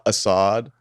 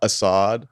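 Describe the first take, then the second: First: The name is said slowly and drawn out. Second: The same.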